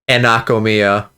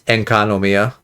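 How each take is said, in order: First: The name begins with the sounds 'Ena'. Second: The name begins with the sounds 'Enka'. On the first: The speaker calls it wrong. "I've been saying it wrong this whole time" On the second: The speaker calls it right. "but it's Enkanomiya"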